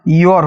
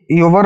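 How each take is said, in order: First: योर said as one syllable, yor; correct pronunciation. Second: योवर said as two syllables, yo-var; wrong pronunciation. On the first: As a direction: give the right reading योर, one syllable. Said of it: "योर होता है". (सही उच्चारण: योर) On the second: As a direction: show the mistaken reading योवर, yo-var. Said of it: "ये योवर नहीं होता है". (गलत उच्चारण: योवर) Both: Shown as a demonstration.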